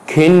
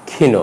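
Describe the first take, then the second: First: ক্ষীণ ending on bare n; dropped final vowel. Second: ক্ষীণ ending in "o"; ক্ষীণ in two syllables; final vowel sounded. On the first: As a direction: say ক্ষীণ as "kheen". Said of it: "নয়". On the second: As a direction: say ক্ষীণ as "khee-no". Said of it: "উচ্চারণ হবে". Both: Shown as a demonstration.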